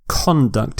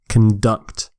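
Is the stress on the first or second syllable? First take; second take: first; second. First: The stress is on the first syllable. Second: The stress is on the second syllable.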